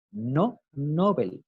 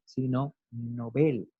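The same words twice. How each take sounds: First: Nobel stressed on the first syllable, NÓ-bel, said slowly; wrong stress Nobel. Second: Nobel stressed on the last syllable, no-BEL, said slowly; correct stress Nobel. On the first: Teacher contrasts wrong stress on the prize name, slowly. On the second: Teacher gives the correct stress on the prize name, slowly. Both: Shown as a demonstration. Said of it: "lo correcto es hablar del premio Nobel".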